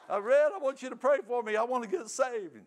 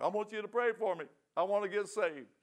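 First: Loud, very high, hammed-up tearful begging; mock bawling plea. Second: Higher pitched, imitating a bawling drunk; mock tearful plea. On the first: Drunk man begging his brother Red again, loud mock bawling. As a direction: wail it out like a bawling drunk, exaggerated. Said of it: "I'm a bawling". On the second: Drunk man begging his brother for prayer, mock tearful plea. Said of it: "now I'm crying. I'm a bawling".

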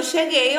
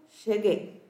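First: Said in the usual way. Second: CHEGUEI said lower and softer; understated, low "Cheguei"; message read with an intonation. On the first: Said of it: "não sabe a entonação que ela tá falando". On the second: Shown as a demonstration. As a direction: drop the voice on "Cheguei". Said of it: "Eu li com essa entonação".

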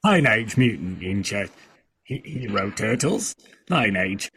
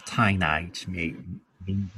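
First: Halting try at a British accent; attempted British accent. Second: Low, soft Australian accent; Australian accent, undertone. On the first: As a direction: try the title in British English. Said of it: "I can't do a British accent". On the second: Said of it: "I can do Australian a little bit". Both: Shown as a demonstration.

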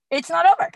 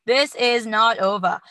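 First: Said in the usual way. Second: Put-on slow, louder stab at an Irish accent; hammed-up Irish with an Austrian action-hero slip; attempted Irish accent. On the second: Host retrying a fighter's post-fight quote, shaky Irish accent. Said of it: "Yeah, there it is".

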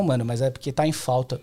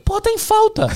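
First: Said in the usual way. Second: High, sneering repeat of the excuse; sarcastic mockery. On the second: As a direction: scoff at it in a much higher voice. Mocking the seller's excuse.

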